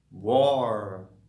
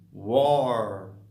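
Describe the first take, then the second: No difference in how they are said.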